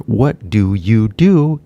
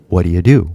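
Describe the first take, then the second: First: "What do you do" said slowly with every word clear; slow full form. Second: "What do you do" run together fast, the T dropped; quick reduced form. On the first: Teacher shows the careful form first. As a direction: pronounce each word separately. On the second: Teacher shows the linked natural version. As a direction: clip it into one quick phrase. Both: Shown as a demonstration. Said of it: "equal to".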